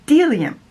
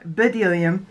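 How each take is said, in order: First: The word starts with a d sound, b silent. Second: The word starts with a spoken b sound. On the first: The speaker calls it right. "it's delium" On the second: The speaker calls it wrong. "found out I've been saying these wrong. It's not bdellium"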